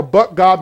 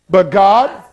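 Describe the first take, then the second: First: Said in the usual way. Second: GOD lifted and loud, rising; dramatic but God. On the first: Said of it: "You never wanna have a". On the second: Shown as a demonstration. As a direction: land on "God" with a rising punch. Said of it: "Now hold on".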